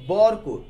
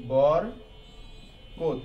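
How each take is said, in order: First: বরকত said short as বর-কত, loud and firm; teacher giving the correct বরকত; right way. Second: বরকত dragged out very slowly, every syllable open; teacher showing the wrong বরকত. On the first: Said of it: "আমরা কি বলি?". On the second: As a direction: stretch বরকত as বর-ক-ত, all open. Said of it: "এইভাবে আমরা বলতে পারি না". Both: Shown as a demonstration.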